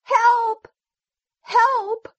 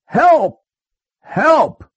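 First: Very high sheep cry for help; sheep yelling. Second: High, loud yell for help. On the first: Sheep in danger from the wolf, very high yell. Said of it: "Then the sheep yelled". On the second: Wolf stuck in the hole, yelling for help. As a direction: yell it out high, each cry separate. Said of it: "The wolf yelled". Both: A narrator's reading.

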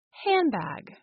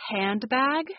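First: "handbag" as "hambag", no d; assimilated "handbag". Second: Said in the usual way. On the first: Shown as a demonstration. Teacher showing the dropped d, "handbag" as hambag. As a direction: let the n of "handbag" become m before the b. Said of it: "The sound becomes M". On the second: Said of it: "sound is then dropped".

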